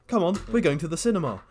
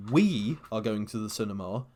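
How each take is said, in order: First: Higher, louder, quicker "Come on, we're going"; bright invite with "Come on" hit hard and high; inclusive invitation. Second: "We" pushed out with a rising end; stress on we. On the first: Friend showing the inclusive "we're", eager invite. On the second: Friend explaining English emphasis, stressing "We". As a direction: lean on "We" to shut the listener out. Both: Shown as a demonstration. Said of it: "the emphasis on certain words completely changing the meaning".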